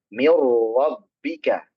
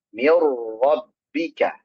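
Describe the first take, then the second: First: The r is trilled lightly and gently. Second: The r is trilled lightly and gently.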